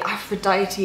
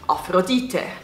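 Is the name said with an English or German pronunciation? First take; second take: English; German. First: The name is said with an English pronunciation. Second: The name is said with a German pronunciation. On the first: The speaker calls it right. "it just rolls off the tongue" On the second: The speaker calls it wrong. "in German you pronounce Aphrodite"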